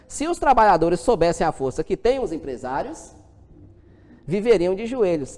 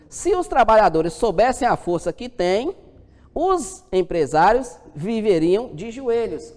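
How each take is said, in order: First: There is a pause after empresários. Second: There is a pause after têm. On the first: The workers would live on their knees. "a vírgula está depois da palavra empresários" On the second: The employers would kneel before the workers. "Olha onde a vírgula está. Depois da palavra tem"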